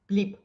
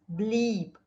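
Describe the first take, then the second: First: The i vowel is short and clipped. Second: The i vowel is long and drawn out. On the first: The speaker calls it wrong. "E não ich blieb" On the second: The speaker calls it right. "mas blieb"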